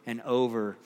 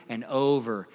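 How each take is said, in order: Both takes have the same delivery.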